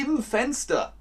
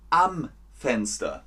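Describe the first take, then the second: First: „im“ hoch und betont, falsche Form; falsch: im Fenster. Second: „am“ klar betont, ruhig fallend; richtig: am Fenster. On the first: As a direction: stress on IM. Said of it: "Das geht nicht". („im Fenster“ mit hoch betontem „im“) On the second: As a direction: stress on AM. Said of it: "dann sitzt ihr am Fenster". („am Fenster“ mit betontem „am“, fallend) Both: Shown as a demonstration.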